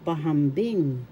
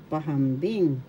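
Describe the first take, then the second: No difference in how they are said.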